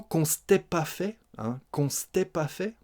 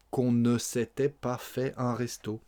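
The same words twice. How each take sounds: First: "s'était" squashed to "stè", rising at "fait"; contracted spoken French. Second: "ne" and both syllables of "s'était" sounded; full careful form. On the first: Teacher repeating for learners, "s'était" contracted to "stè". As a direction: run "qu'on s'était" together as "kon-stè". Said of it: "Les contractions et les écrasements des sons". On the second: Teacher giving the full form, every syllable of "s'était" kept. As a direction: say "qu'on ne s'était pas" without contracting. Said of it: "le ne de la négation". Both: Shown as a demonstration.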